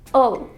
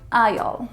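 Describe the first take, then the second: First: It is said quickly, reduced to an 'ul' sound. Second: It is said fully, with a clear 'eye' vowel.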